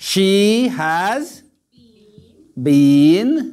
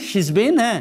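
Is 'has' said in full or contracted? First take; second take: full; contracted. First: The word has is said in full. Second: The word has is contracted to s.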